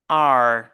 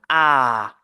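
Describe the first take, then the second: First: A vowel ending in a clear r sound. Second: A long open vowel with no r sound. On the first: "en anglais américain, généralement, on a la- cette prononciation R" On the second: "En anglais britannique, on prononce la lettre comme A, comme le son de A tiré"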